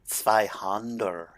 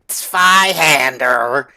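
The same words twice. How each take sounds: First: It is said with a German-style pronunciation. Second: It is said with an English-style pronunciation. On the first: The speaker calls it right. "I do know basic pronunciation" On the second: The speaker calls it wrong. "Not z- Zweihander"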